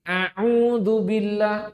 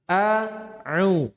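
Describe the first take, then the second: First: Both opening sounds are pharyngeal ain sounds. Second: A glottal stop comes first, then an ain. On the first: The speaker calls it wrong. "malah apa ini? Ain semua" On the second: The speaker calls it right. "Tapi a'u. Nah, ini loh"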